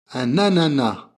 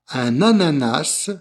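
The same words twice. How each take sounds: First: The final s of ananas is silent. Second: The final s of ananas is pronounced. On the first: "sans le S" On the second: "avec le S"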